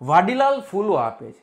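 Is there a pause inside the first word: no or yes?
no. The first word is said without any break. A gardener named Vadilal gives flowers. "Vadilal નામનો કોઈ માળી છે"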